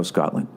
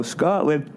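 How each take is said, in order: First: Said in the usual way. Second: Word stretched out through a yawn. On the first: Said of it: "All the way from Glasgow". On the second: Real, not acted. Reading a listener's letter, yawning mid-word. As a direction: yawn right through "Scotland.". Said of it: "Sorry, I'm yawning".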